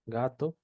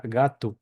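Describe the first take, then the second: First: Said in the usual way. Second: "gato" said as GA-tu, final O like oo; Brazilian pronunciation. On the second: Shown as a demonstration. Teacher correcting the spelled form for learners, final O as U. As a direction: close the last vowel of "gato" to a U. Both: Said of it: "que se pronuncia gato".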